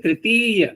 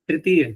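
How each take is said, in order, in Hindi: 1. दूसरा स्वर दीर्घ बोला जाता है। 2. दूसरा स्वर ह्रस्व बोला जाता है। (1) "होना क्या चाहिए?" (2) "देखो प्राय अभ्यास क्या बना हुआ है"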